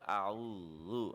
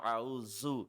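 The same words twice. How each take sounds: First: The middle consonant is a soft 'dh' sound. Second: The middle consonant is a hard 'z' sound. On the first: The speaker calls it right. "that is also Zal" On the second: The speaker calls it wrong. "It is not Za, not A'udhu"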